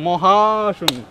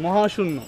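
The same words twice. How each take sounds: First: মহাশূন্য hit louder, falling hard at the end; stress on মহাশূন্য. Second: Said in the usual way. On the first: Acted. Friend flattering the elder brother, punching মহাশূন্য. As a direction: punch মহাশূন্য to top শূন্য. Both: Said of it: "শুধু শূন্য না".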